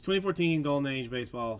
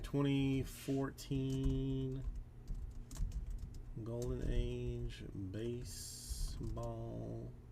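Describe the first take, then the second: First: The phrase is spoken in a normal voice. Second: The phrase is spoken in a whisper.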